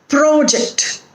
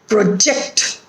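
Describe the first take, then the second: First: The stress is on the first syllable. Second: The stress is on the second syllable. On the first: It is used as a noun. "when there is a noun or an adjective, the stress is on the first syllable" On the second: It is used as a verb. "when it is a verb, it is on the second syllable"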